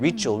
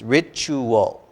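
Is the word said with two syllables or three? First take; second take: two; three. First: The word is squeezed into two syllables. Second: The word is spoken with three full syllables. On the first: The speaker calls it wrong. "I think several a couple times you said" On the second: The speaker calls it right. "make it three syllables"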